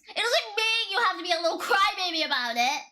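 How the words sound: It is said with real conviction.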